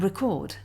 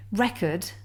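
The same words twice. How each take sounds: First: Record as the verb, re-CORD; record stressed at the end, on CORD; stress on second syllable. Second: Record as the noun, REC-ord; Record stressed at the front, short second syllable; stress on first syllable. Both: Shown as a demonstration. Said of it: "in some cases the accent actually changes".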